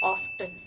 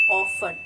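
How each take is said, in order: First: Often as American off-ten, t sounded; often in an American accent; American pronunciation. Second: Often as British off-en, t silent; often in a British accent; British pronunciation. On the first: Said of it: "the American pronunciation". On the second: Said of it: "It's the British pronunciation". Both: Shown as a demonstration.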